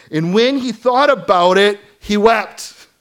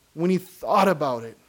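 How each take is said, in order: First: Loud, high emphasis on thought; impassioned. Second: Thought stressed, falling. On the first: Acted. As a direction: stress thought, cry it out. First reading of verse. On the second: Shown as a demonstration. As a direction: lean on the word thought. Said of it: "repeated for emphasis".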